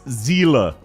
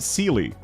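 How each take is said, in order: First: The name is said with a German pronunciation. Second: The name is said with an English-style pronunciation. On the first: The speaker calls it right. "It's a German word" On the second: The speaker calls it wrong. "everyone pronounces Sealer's name wrong"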